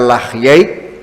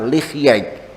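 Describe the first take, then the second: First: The first syllable has the vowel a. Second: The first syllable has the vowel i. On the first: This is the better-known reading. "Lamnya di fathah lebih masyhur" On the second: This is the less common reading. "kalau dibaca kasrah"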